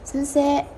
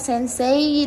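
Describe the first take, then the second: First: The word ends with a plain e sound. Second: The word ends with an i or y glide. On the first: The speaker calls it right. "Gitu biasanya ada e-nya gitu di ujung ya" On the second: The speaker calls it wrong. "kita nggak nyebutnya sensei dengan i atau y di ujung"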